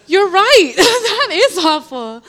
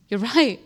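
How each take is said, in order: First: High, loud, laughing through the words; a laughing "You're right" that is higher and louder than plain; laughing agreement. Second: Said in the usual way. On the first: Retold or imitated. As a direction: crack up while agreeing.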